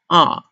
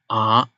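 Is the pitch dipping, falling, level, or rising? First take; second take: falling; dipping. First: The pitch falls sharply downward. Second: The pitch dips down then rises. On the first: "It's like a falling tone. It's, it falls" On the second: "First you go down and then you bounce back"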